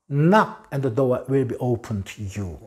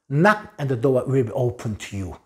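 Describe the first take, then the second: The two takes are said the same way.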